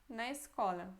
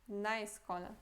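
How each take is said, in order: No difference in how they are said.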